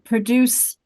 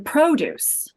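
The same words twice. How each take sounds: First: The stress is on the second syllable. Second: The stress is on the first syllable. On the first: It is used as a verb. "if I if I uh, produce" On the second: It is used as a noun. "the produce"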